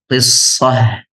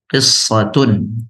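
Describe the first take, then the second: First: The word ends in a short -ah sound. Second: The word ends in a full -atun ending. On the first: "jika kita sukunkan taknya, kita baca qissah" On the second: "jika kita sempurnakan, kita baca qissatun"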